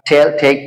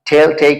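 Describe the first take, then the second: Both takes have the same delivery.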